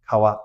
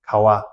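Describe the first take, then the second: First: The middle consonant is a w, lips apart. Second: The middle consonant is a w, lips apart.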